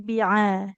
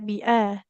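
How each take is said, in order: First: The middle consonant is squeezed deep in the throat. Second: The middle consonant is a light glottal stop. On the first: The speaker calls it right. "huruf ainnya di tengah tenggorokan" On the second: The speaker calls it wrong. "jangan seperti hamzah, tidak bi'ah"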